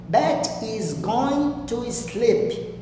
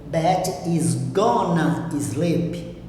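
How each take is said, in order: First: "Going to" is said in full. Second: "Going to" is reduced to "gonna". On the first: This is the formal way of saying it. "A forma formal é essa primeira frase que eu utilizo, going to" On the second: This is the informal, spoken way of saying it. "Mas é a forma informal"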